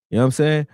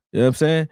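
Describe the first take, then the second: No difference in how they are said.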